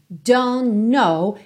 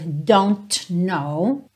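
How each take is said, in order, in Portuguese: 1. As duas palavras se juntam numa só ligação. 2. As duas palavras são ditas com clareza e separadamente. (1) "É muito comum mesmo essa ligação" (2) "ao invés de dizer"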